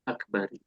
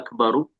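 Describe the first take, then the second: First: The word ends with the vowel i. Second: The word ends with the vowel u. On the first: The speaker calls it wrong. "tidak boleh" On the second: The speaker calls it right. "ini juga akbaru sebagai khobar"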